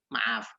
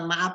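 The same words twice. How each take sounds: First: The word ends with an f sound. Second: The word ends with a p sound. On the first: The speaker calls it right. "tetapi maaf" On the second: The speaker calls it wrong. "bukan maaf pakai P"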